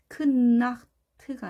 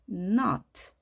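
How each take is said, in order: First: A k sound is heard before the n. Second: The word starts directly with the n sound. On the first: The speaker calls it wrong. "크나트가 아닌" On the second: The speaker calls it right. "크나트가 아닌 not"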